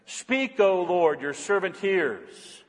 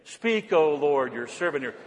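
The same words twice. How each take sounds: First: Slow, deliberate prayer line. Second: Slow, drawn-out recitation; slow prayer. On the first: Pastor modeling the prayer slowly for the congregation. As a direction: savor each word of the prayer. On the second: Congregation repeating the prayer after the pastor, slow. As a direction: speak it slowly with the congregation. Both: Shown as a demonstration. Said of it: "Say it with me".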